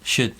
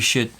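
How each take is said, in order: Both takes have the same delivery.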